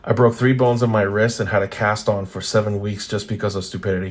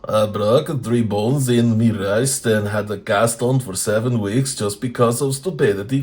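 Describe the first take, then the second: First: It is read in the speaker's normal voice. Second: It is read in a put-on, Russian-sounding voice.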